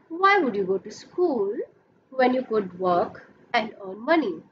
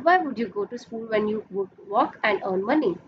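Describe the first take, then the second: First: It is said with clear pauses between phrases. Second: It is said straight through without clear pauses.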